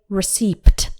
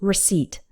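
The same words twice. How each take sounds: First: A P sound is pronounced before the final T. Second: No P sound is heard before the final T. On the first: The speaker calls it wrong. "We don't say receipt" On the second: The speaker calls it right. "it's just receipt. Imagine the P just isn't there"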